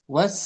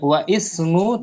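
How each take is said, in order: First: The initial vowel is dropped, linking into was. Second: The vowel of ismu is pronounced separately after wa. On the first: The speaker calls it right. "tapi was" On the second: The speaker calls it wrong. "Tidak wa ismu"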